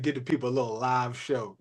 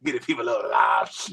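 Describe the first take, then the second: First: Lower, softer quoted line; just report his words, low and soft; quoting Keith. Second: Lower, fast, shouted raspy impression of Keith; raspy voice imitation. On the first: Retold or imitated. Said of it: "He said". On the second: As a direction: bark it out in his raspy voice, fast. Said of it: "with the raspy voice".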